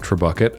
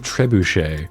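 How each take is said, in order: First: The word ends with a 'kit' sound. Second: The word ends with a 'shay' sound. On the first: The speaker calls it wrong. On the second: The speaker calls it right.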